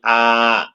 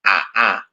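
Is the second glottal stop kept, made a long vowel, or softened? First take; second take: long vowel; kept. First: The second glottal stop becomes a long vowel. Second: Both glottal stops are fully pronounced. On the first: "diganti alif, artinya dibaca ibdal" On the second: "ketika hamzahnya dibaca fathah"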